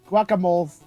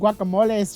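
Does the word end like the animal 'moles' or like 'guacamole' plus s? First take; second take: moles; guacamole plus s. First: The word ends like the animal word 'moles'. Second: The word ends like 'guacamole' with an added s. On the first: Little moles that dig around in guacamole. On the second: Several servings of the dip.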